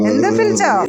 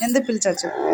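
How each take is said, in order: First: Sharp loud repeat of ఎందుకు పిలిచావు, stress on పిలిచావు; loud call. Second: Said in the usual way. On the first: Acted. Owner to her pet, a loud demanding call. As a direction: bark it out at the pet. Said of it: "repeated after plain take". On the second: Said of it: "repeated louder take".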